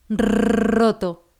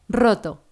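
First: The R is trilled for a long time. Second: The R is trilled only briefly. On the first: "y añade lo demás" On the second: "haz que vibre un poco menos de tiempo"

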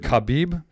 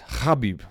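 First: The name starts with a plain k sound. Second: The name starts with a throaty kh sound. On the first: The speaker calls it wrong. "we all do it" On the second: The speaker calls it right. "the proper way to say his name"

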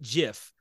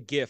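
First: The word begins with a J sound. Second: The word begins with a hard G sound. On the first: The speaker calls it wrong. "and call it GIF. Like, I'm not doing that" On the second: The speaker calls it right. "the G stands for graphics"

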